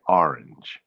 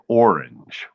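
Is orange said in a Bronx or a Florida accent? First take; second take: Bronx; Florida. First: It is said the way Bronx locals say it. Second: It is said the way Florida locals say it. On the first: "we say orange, where I grew up in the Bronx" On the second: "when I heard them say orange"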